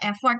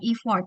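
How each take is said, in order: First: The first vowel sounds like 'e'. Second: The first vowel sounds like 'i'. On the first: The speaker calls it right. "bacanya tetap effort" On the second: The speaker calls it wrong. "bukan effort"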